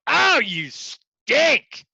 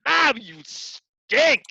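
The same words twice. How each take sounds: First: High, loud, slow mocking jeer; slow, high, loud scornful jeer; sneering put-down. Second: Slow, high, loud scornful jeer; high drawn-out mocking put-down; sneering put-down. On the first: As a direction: drag it out like a mean instructor sneering. Mock put-down to a trainee. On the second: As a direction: sneer it like a mean instructor. Mock put-down repeated.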